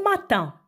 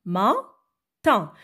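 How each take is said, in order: First: Said in the usual way. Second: "Matin" broken in two, pause after "Ma"; "Matin" as two separate beats, ma... tin; split into syllables. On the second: Shown as a demonstration. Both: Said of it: "dans quelle syllabe".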